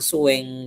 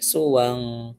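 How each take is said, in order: First: The vowel before the n leans toward e. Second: The vowel before the n is a plain a. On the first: The speaker calls it wrong. "Bukan suweng gitu ya" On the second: The speaker calls it right. "Tapi suwang qol"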